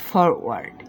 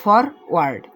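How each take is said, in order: First: forward said much lower, softer; forward as a low settled ending; low final word. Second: Said in the usual way. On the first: Shown as a demonstration. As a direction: drop forward low and soft to close. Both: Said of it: "এরকম ভেঙে ভেঙে উচ্চারণ করবেন".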